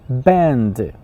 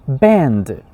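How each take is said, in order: Both takes have the same delivery.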